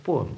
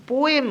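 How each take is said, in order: First: পোয়েম in two syllables, "po-em"; correct pronunciation. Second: পোয়েম run together as one syllable; wrong পোয়েম, said as one syllable; wrong pronunciation. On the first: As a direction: say the right পোয়েম split in two. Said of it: "সঠিক উচ্চারণটি হবে". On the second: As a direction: mistaken পোয়েম, squeezed. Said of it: "তাহলে তুমি ভুল". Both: Shown as a demonstration.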